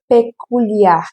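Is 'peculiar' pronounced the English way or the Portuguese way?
Portuguese. The word is read with Portuguese sounds. The speaker calls it wrong. "Não é peculiar, porque é a mesma escrita grafia que no português"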